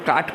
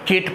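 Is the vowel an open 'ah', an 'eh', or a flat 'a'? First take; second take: open ah; eh. First: The vowel is a long open 'ah'. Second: The vowel is a mid 'eh'. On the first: "अब इसको हम काट पढ़ सकते हैं" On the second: "केट पढ़ सकते हैं"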